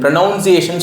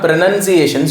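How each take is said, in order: First: The second syllable sounds like 'noun'. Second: The second syllable sounds like 'nun'. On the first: The speaker calls it wrong. "நீங்கள் ப்ரொனவுன்சியேஷன் சொல்லுவீங்க" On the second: The speaker calls it right. "இங்கிலீஷில் எப்படி கரெக்டாக சொன்னோன்னா"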